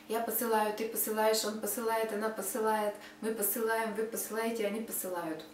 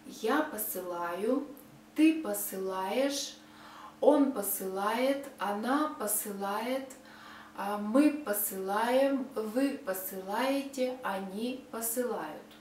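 First: It is said fast. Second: It is said slowly.

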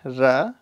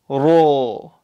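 First: The vowel is a thin, open 'a'. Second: The vowel is a full-mouthed, rounded 'o'. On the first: The speaker calls it wrong. "don't say ra" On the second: The speaker calls it right. "say ro, like that"

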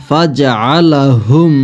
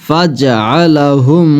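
The two takes are said the same way.

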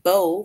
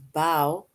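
First: The vowel sounds like the one in low. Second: The vowel sounds like the one in how. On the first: "it rhymes with low" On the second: "which rhymes with how"

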